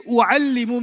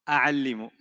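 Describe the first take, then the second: First: The word begins with the vowel u. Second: The word begins with the vowel a. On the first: The speaker calls it right. "If they say u'allimu means what? I teach" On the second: The speaker calls it wrong. "no, that's Bahasa, but that's not Arabic"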